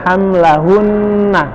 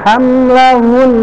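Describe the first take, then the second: First: The final na syllable is clearly pronounced. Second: The final na is dropped and the nasal held long. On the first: It is read as a practice fragment. "kalau dalam latihan dibaca hamlahunna" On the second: It is read at a stopping point in recitation. "dia ditahan lebih lama lagi ... nggak dibaca nanya karena dia wakof"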